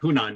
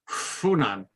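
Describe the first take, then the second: First: The word begins with an H sound. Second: The word begins with an F sound. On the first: The standard pronunciation, not a local native's. The speaker calls it wrong. "you can't pronounce it Hunan" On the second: The pronunciation of a real local native. The speaker calls it right. "You have to pronounce it Funan"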